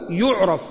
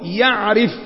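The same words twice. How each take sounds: First: The vowel after the r is 'a'. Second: The vowel after the r is 'i'. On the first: It is known and recognizable. "يعرف يعني إيه؟ يعني معروف" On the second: It has a distinct smell. "يعرف يعني له عرف ورائحة"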